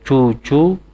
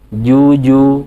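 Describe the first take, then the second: First: The consonant sounds like a voiceless 'ch'. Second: The consonant sounds like a voiced 'j'. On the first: The speaker calls it wrong. "Tidak cucu" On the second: The speaker calls it right. "tapi juju"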